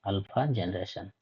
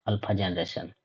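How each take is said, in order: Both takes have the same delivery.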